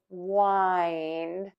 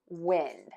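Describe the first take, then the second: First: The vowel is a long i sound. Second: The vowel is a short i sound. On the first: "we are going to use a long I" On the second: "we are going to pronounce the vowel as a short vowel"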